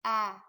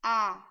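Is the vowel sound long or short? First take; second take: short; short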